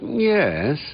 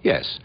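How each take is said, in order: First: The voice falls and then rises. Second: The voice simply falls.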